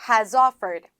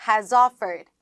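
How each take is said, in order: No difference in how they are said.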